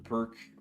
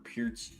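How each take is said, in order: First: The name ends with a hard k sound. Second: The name ends with a ch sound.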